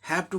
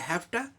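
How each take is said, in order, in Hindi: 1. दोनों शब्द पूरे और अलग-अलग बोले जाते हैं। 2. शब्द आपस में जुड़कर एक हो जाते हैं।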